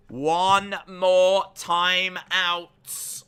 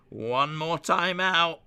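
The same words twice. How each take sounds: First: Very slow, high and loud, every word stretched; booming mock warning. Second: Raised, stretched warning; mock warning. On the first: Streamer warning chat of one timeout left, hugely drawn-out call. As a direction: drag each word out as a big warning. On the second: Streamer warning chat of one timeout left, mock ominous. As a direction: announce it slowly, pitch climbing.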